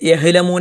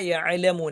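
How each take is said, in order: First: The middle consonant is a plain h sound. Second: The middle consonant is a throaty ain sound. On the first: The speaker calls it wrong. "എന്നൊന്നും പറയാൻ പാടില്ല" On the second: The speaker calls it right. "ഐനാണ്"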